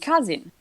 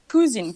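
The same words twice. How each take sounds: First: The word is said with an English pronunciation. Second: The word is said with a French-like pronunciation. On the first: The speaker calls it right. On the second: The speaker calls it wrong.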